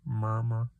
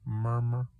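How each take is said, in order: No difference in how they are said.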